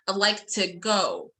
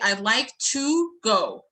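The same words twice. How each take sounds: First: The word to is reduced to ta. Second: The word to has a full, clear vowel. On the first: The speaker calls it right. "I'm gonna unstress it, so I'm gonna use the weak form, which is ta" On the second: The speaker calls it wrong. "if I'm not going to uh, to unstress the word"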